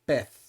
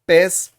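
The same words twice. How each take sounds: First: The final z sounds like th, Spanish style. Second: The final z sounds like s, Latin American style.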